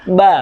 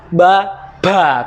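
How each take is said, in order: First: No puff of air follows the b. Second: A puff of air follows the b. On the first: The speaker calls it right. "sifatnya huruf ba aja syidah, nggak boleh keluar udara kok" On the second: The speaker calls it wrong. "ngomong ba ba keluar udara"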